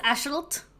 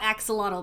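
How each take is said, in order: First: The x is not sounded as 'ks'. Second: The x is sounded as 'ks'. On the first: The speaker calls it right. "It's pronounced Ashalt" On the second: The speaker calls it wrong. "I'm sure it's not axolotl"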